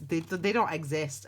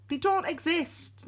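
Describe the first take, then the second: First: Said in the usual way. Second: They don't exist, slow and high, leaning on don't; insist, higher and slower, that they don't exist; emphatic. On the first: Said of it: "I mean, look, they don't exist". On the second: Shown as a demonstration. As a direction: drag out don't exist much higher than usual. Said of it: "I mean, look".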